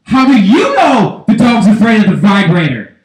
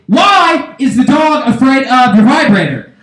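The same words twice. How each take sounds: First: Louder accusing comeback; wife retorting. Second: High, slow accusing question; demanding husband. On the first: Wife answering her husband, indignant retort. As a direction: fire the question back, punching "you". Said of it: "And then the wife says". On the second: Husband confronting his wife, high demanding question. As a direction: call it out with a drawn-out "Why". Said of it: "I say". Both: Acted.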